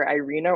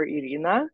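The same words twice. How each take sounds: First: Irina said the American way, eye-REE-nuh; English-style Irina; anglicized pronunciation. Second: Irina said the Russian way, ee-REE-nah; Russian-style Irina; Russian pronunciation. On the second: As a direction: say Irina with Russian vowels and a tapped R. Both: Shown as a demonstration. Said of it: "depending on how Russian you want".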